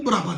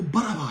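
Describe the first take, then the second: First: برابا run together as braba, no vowel after the b; wrong pronunciation. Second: برابا with a full vowel after the b: ba-ra-ba; correct pronunciation. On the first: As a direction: squeeze برابا into two syllables, braba. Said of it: "وہ برابا نہیں ہے". (برابا کو غلط طور پر بربا ملا کر بولیں) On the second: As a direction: open every syllable of برابا, ba-ra-ba. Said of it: "وہ برابا ہے". (برابا کو درست طور پر بَ-را-با الگ الگ بولیں) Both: Shown as a demonstration.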